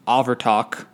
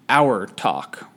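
First: The name begins with an 'av' sound. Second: The name begins with an 'our' sound. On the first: "it's pronounced Avertok" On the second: "I've also seen that it was pronounced Our Talk"

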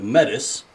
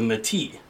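First: It sounds like 'Met-iss', ending in an s. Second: It sounds like 'May-tee', ending in an ee. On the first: "phonetically spelled Met-is" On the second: "phonetically spelled May-T"

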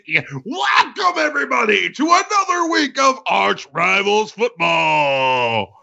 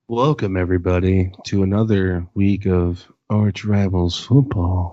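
First: It is said loudly, with lots of energy. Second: It is said flatly, with little energy.

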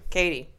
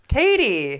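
First: It is said flatly, without enthusiasm. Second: It is said with lots of enthusiasm.

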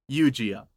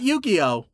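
First: The name is said like Eugene plus O. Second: The name is said like the card game. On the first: The speaker calls it right. "It's like Eugene, but with an O at the end" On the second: The speaker calls it wrong. "Not Yu-Gi-Oh"

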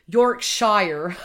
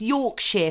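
First: It is said with an American accent. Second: It is said with a British accent. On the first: The speaker calls it wrong. "I'm going to pronounce it how the Americans pronounce it" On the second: The speaker calls it right. "It's Yorkshire, people"

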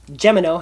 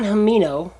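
First: The name is pronounced in the American way. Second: The name is pronounced in a non-American way.

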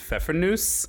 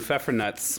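First: The word ends with a plain s sound. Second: The word ends with a ts sound. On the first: This is the proper German name. "the correct German pronunciation is Pfeffernuss" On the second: This is the family's homegrown name. "we always called them Pfeffernuts growing up"

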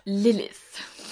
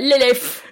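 First: It is said in a posh received pronunciation accent. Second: It is said loudly in a Cockney accent. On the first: "it's received pronunciation" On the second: "the Cockneys and London people"

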